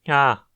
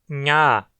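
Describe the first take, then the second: First: The consonant is voiceless, with breathy air only. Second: The consonant is voiced, with vibrating vocal folds.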